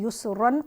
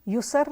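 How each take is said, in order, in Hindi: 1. शब्द नासिक्य -an पर ख़त्म होता है। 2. शब्द एक सादे व्यंजन पर ख़त्म होता है। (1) "ना ही युसरन पढ़ेंगे" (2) "यहाँ पर हम इसको युसर नहीं पढ़ेंगे"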